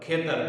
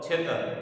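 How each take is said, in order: First: The word begins with an aspirated 'kh' sound. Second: The word begins with an aspirated 'ch' sound. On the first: This is the standard form. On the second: This is the regional dialect form.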